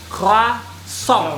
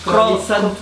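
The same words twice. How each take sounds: First: The r is made in the throat. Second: The r is a plain, non-throaty r. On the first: The speaker calls it right. "R-nya harus cadel" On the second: The speaker calls it wrong. "bukan croissant atau croissant"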